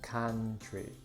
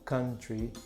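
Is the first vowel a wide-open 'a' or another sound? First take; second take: open a; other. First: The first vowel is a wide-open 'a' sound. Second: The first vowel is another not wide-open sound. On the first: The speaker calls it right. "é country" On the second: The speaker calls it wrong. "ou country"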